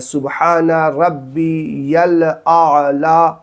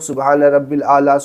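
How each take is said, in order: First: The 'ya' sound after 'Rabbi' is clearly said. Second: The 'ya' sound after 'Rabbi' is dropped. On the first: The speaker calls it right. "ऐसे पढ़ना है" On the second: The speaker calls it wrong. "बहुत सारे लोग ... पढ़ते होंगे ... तो ऐसे नहीं पढ़ना है"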